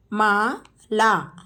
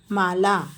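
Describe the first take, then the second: First: Mala drawn out slowly; slow teacher model of Mala. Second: Said in the usual way. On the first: Shown as a demonstration. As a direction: stretch Mala syllable by syllable. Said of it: "teacher models name slowly". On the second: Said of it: "quick plain repeat".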